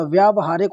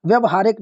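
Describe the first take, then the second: First: व्यावहारिक said with a long "vyaa"; correct long vowel. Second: व्यवहारिक said with a short "vya"; wrong short vowel. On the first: Teacher repeating the correct form, long "vyaa" in व्यावहारिक. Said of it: "होता है". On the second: Teacher repeating the wrong form, short "vya" in व्यवहारिक. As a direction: clip only the first vowel short in व्यवहारिक. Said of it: "नहीं होता". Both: Shown as a demonstration.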